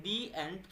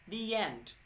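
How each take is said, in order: First: "the end" said slowly as a plain "di end" with no glide; slow, careless "the end" without the y-sound; wrong pronunciation. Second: "the end" said very slowly as "dee yend", gliding a y into end; correct pronunciation. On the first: Teacher demonstrates the wrong "the end" to students, slowly. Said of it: "तो ये गलत है". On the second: Teacher shows students the correct "the end", stretched slowly. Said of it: "ए बन जाता है वाई". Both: Shown as a demonstration.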